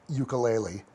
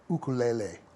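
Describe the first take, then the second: First: The word is pronounced the usual English way. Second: The word is pronounced the Hawaiian way. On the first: "I'll I'll use our normal ukulele" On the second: "I'll use the correct Hawaiian uh, pronunciation"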